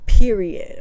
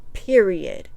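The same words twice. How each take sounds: First: Louder, clipped final word; emphatic period. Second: Said in the usual way. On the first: Real, not acted. Stressing her point to viewers, louder emphatic punch. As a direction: slam the word down.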